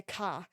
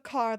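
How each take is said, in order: First: "ka" with no R, Boston style. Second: Said in the usual way. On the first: Shown as a demonstration. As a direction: say "ka" like a Bostonian, R dropped. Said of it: "Instead of car, they say ka". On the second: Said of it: "Instead of car".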